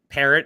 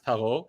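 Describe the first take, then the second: First: The name sounds like the English word 'parrot'. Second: The name is said French-style, stress on the end. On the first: The speaker calls it wrong. "parrot in English" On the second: The speaker calls it right. "the French way of pronounce or the proper way of pronouncing is"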